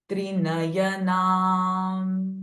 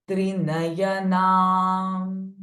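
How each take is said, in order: Both takes have the same delivery.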